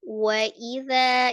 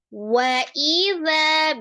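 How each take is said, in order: First: The opening syllable is said evenly without pressure. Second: The opening syllable is pressed hard and stretched. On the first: The speaker calls it right. "biasa seperti biasa saja, tidak ditinggikan gitu ya, tidak dipanjangkan" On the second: The speaker calls it wrong. "suka terlalu menekan di awal ya. Wa idza biasanya seperti itu"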